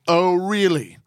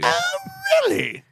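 First: It is said in the speaker's normal voice. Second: It is said in an imitated wife's voice.

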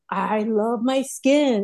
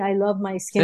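First: It is said warmly, sounding sincere. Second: It is said flatly, sounding insincere. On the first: The speaker truly means the words. The speaker calls it right. "the key here is mean it" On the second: The speaker does not really mean the words. The speaker calls it wrong. "not like you're saying"

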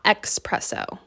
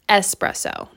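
First: The word begins with an eks sound. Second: The word begins with an ess sound. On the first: The speaker calls it wrong. "not expresso" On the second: The speaker calls it right. "It's E-S. Espresso"

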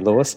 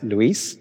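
First: The name is said the English way. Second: The name is said the Spanish way. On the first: This is an accepted everyday version. "I'm happy for you to call me Lewis" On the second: This is the name's true pronunciation. "it's a Latin background... my name's actually pronounced Luis"

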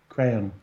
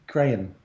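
Both takes have the same delivery.

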